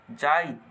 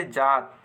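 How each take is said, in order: First: जाइत pressed through an aa-i glide; stressed i glide. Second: Said in the usual way. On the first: Shown as a demonstration. Teacher showing how stress changes the word, stressed glide in जाइत. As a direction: put weight on the इ before त in जाइत. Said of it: "इकर में बल लगाए के पड़त है". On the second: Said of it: "जात कहल से बहुत आसानी से".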